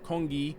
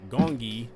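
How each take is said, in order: First: The word begins with a K sound. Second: The word begins with a hard G sound. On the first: The speaker calls it right. "pronouncing the game as Kongi" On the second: The speaker calls it wrong. "not Gongi like I was originally doing"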